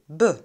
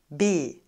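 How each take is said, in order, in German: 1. Der Vokal ist ein schwaches Schwa. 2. Der Vokal ist ein klares e. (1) "ein Schwa, also b" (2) "nicht b"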